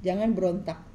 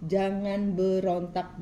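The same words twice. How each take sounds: First: Said in the usual way. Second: Jangan berontak stretched out very slowly; slowed-down plea not to resist; slow emphatic repeat. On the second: Acted. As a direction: drag each word of jangan berontak out, pleading.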